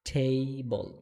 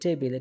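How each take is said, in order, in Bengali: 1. প্রথম t টি aspirated, বাতাসের ফুঁ সহ। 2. প্রথম t টি সাধারণ, বাতাসের ফুঁ ছাড়া। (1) "এটা হবে টেবল, ঠ উচ্চারণ হবে" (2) "এটা মূলত উচ্চারণ টেবিল হবে না"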